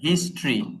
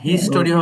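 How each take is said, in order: First: The word has two syllables, his-try. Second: The word has three syllables, his-to-ry. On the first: The speaker calls it right. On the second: The speaker calls it wrong. "যেমন হিস্টোরি হবে না"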